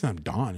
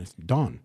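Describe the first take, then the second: First: "Don" with the vowel of "Dawn"; West Coast pronunciation. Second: "Don" with a fronted "Dahn" vowel; Wisconsin pronunciation. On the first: Wisconsin student mimics dorm mate, drawn-out "Don". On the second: Wisconsin student corrects dorm mate, "Don" as "Dahn". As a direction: correct it to "Don", open Midwestern ah. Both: Retold or imitated. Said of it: "just that little".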